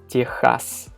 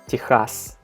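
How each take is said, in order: First: It is said with a Russian pronunciation. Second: It is said with a Russian pronunciation.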